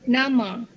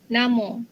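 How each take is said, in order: First: It is said in Standard Malay pronunciation. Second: It is said in Negeri Sembilan dialect pronunciation. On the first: "bahasa Melayu Standard" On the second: "Dalam dialek Negeri Sembilan"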